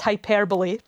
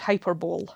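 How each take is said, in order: First: The stress is on the second syllable. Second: The stress is on the first syllable. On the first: The speaker calls it right. "It is, of course, hyperbole" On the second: The speaker calls it wrong. "I would always pronounce this word hyperbole, because I am a contrary human being"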